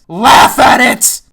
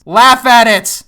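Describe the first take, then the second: First: Loud, slow, each word "Laugh at it" stretched; drawn-out mock demand. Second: Loud sarcastic demand, Laugh hit hard; mock command. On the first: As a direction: drag it out like a parody. Repeat, slower and harder. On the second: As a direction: order the viewer to laugh, mockingly.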